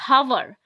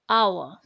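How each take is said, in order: First: The word starts with an H sound. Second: The word starts with a vowel sound. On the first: The speaker calls it wrong. "Here we are not saying it hour" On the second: The speaker calls it right. "we are pronouncing it as hour"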